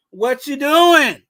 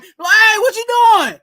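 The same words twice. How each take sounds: First: Loud, drawn-out call at own pitch; mock yell at a player on TV; slow, raised-voice challenge; imitated TV yelling. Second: Loud, high-pitched yell at the TV; squealed, hammed-up outraged holler. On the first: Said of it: "I'm yelling at the T V". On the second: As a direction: shoot way up high in exasperated disbelief. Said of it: "that's where [name] getting the high voice".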